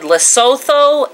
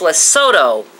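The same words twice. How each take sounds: First: The consonant before the last vowel is 'th'. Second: The consonant before the last vowel is 't'. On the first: "I had said" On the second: "the T H is a T sound"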